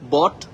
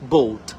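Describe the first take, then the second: First: The vowel sounds like the one in 'bot'. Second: The vowel sounds like the one in 'boat'. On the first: The speaker calls it wrong. "বট না বলে" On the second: The speaker calls it right. "এটাকে আমরা বলবো বোট"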